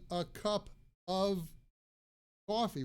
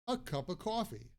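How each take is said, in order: First: The f in 'of' is pronounced, stopping the air. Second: The word 'of' is reduced to a plain 'uh'. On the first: The speaker calls it wrong. "instead of saying a cup of coffee with the stop" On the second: The speaker calls it right. "we pronounce of as a"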